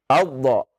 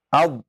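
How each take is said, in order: First: The final consonant is released with a bouncing echo. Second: The final consonant is held without release. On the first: The speaker calls it wrong. "Jangan abdo. Kalau abdo, nah itu antum pantulkan ya" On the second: The speaker calls it right. "Antum tahan terlebih dahulu makhraj dotnya"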